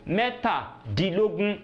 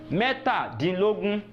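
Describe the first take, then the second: No difference in how they are said.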